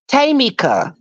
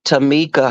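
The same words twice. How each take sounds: First: Tamika said high, first syllable as a stressed "tay". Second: Said in the usual way. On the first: Acted. Mocking a misread name, Tamika as high TAY-mika.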